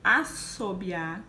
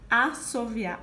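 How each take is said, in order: First: The middle consonant is a B sound. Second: The middle consonant is a V sound. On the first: "Assobiar, B" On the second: "assoviar, V"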